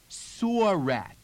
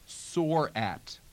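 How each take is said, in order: First: The r is sounded and glides into the next word. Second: The r is pronounced in a General American way.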